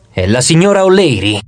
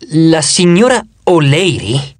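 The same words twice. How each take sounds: First: Said in the usual way. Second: Slow, puzzled echo, rising at the end; incredulous question. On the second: A narrator's reading. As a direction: draw out "signora O'Leary" slowly as a doubting question. Narrator echoes the name in disbelief. (domanda incredula, "signora O'Leary" scandito lentamente)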